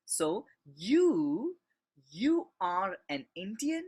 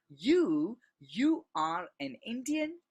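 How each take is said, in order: First: Said in the usual way. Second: You said louder and higher, then you are an Indian; first You punched loud and high to single the person out; stress on You. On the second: Shown as a demonstration. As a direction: lean hard on the opening You. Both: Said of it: "if you want to stress or if you want to emphasize".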